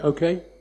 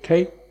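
First: The word is said at full length. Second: The word is clipped short and sharp. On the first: "that's shorter" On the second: "okay is too long, so you just get"

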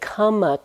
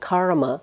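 First: It is said without an r, as kamma. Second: It is said with an American r, as karma. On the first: This is the Pali form of the word. "that's the Pali pronunciation and spelling of the word karma" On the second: This is the Sanskrit form of the word. "I have to use my American accent"

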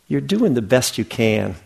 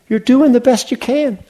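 First: It is said in a glum, disappointed tone. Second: It is said in a cheerful, happy tone.

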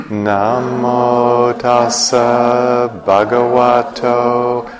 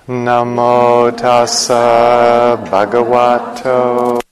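The two takes are said the same way.

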